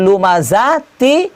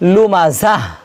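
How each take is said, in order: First: The word ends in a t sound. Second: The word ends in a soft h sound. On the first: The word is joined to the next word. "আর যদি মিলিয়ে নিয়ে পড়েন" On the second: The reciter stops and takes a breath after the word. "এখানে হা দিয়ে কি করতে হবে"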